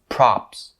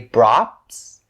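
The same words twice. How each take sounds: First: The word begins with a voiceless P sound. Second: The word begins with a voiced B sound. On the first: The speaker calls it right. "It's props" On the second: The speaker calls it wrong. "don't turn it into the B sound and say props. Props is not correct"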